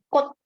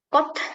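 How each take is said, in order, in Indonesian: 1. Tidak ada konsonan yang berhembus. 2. Konsonan terakhir dilepas dengan hembusan. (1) "Semuanya mati, tidak dilupa" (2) "Dan T-nya tidak pakai H juga"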